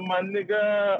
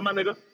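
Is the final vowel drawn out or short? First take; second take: drawn out; short. First: The final vowel is drawn out long. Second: The final vowel is short and plain. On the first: The speaker calls it wrong. "don't drag that A too long" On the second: The speaker calls it right. "Keep it simple"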